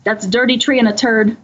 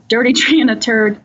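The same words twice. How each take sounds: First: Said in the usual way. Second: Cracking up mid-punchline; laughing. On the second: Retold or imitated. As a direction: laugh through the words. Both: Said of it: "the interviewee says".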